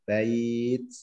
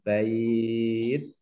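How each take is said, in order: First: The vowel is held for one beat. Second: The vowel is held for two beats. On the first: "Mau panjang satu alif boleh" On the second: "Dua alif boleh"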